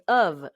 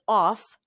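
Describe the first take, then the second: First: The word ends with a V sound. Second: The word ends with an F sound. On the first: "and America, it will be pronounced as of, uh and v sound" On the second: "O F in India, you would pronounce this as off"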